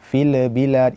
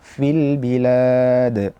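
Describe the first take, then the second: First: The l has an extra bouncing release. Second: The l is smooth with no bounce. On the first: The speaker calls it wrong. "jangan sampai kita mendatangkan qalqalah pada lam" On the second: The speaker calls it right. "yang benar adalah fil bilad"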